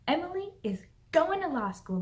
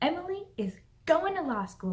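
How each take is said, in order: First: The word 'is' is said in full. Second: The same.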